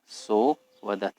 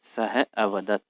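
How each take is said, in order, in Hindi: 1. दोनों शब्द मिल जाते हैं और 'a' मौन रहता है। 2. दोनों शब्द अलग रहते हैं और 'a' सुनाई देता है। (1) "इसे साइलेंट कर दिया जाता है उच्चारण के समय" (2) "सो की जगह सह है और फिर अवदत है"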